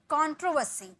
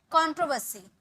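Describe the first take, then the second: No difference in how they are said.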